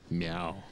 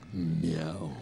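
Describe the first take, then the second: First: It is a plain, ordinary meow. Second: It is a growly, roaring dinosaur-like meow.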